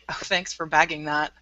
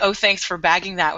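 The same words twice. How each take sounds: First: It is said in a flat, unfriendly tone. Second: It is said in a peppy, bubbly tone.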